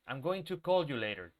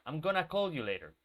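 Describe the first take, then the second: First: "Going to" is said in full, two clear words. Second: "Going to" is squeezed into one quick word. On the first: It sounds more formal. The speaker calls it wrong. "So I don't say" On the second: It sounds informal and friendly. The speaker calls it right. "I say to my friends"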